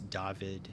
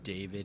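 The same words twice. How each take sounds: First: The name is pronounced the Polish way. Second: The name is pronounced the usual English way. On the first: "pronounced the way that Polish people pronounce them" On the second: "instead of David"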